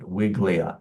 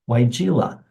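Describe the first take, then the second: First: The name is said with two syllables. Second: The name is said with three syllables. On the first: The speaker calls it wrong. "it kind of does look like you'd pronounce it Wiglia" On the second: The speaker calls it right. "it's Weigela"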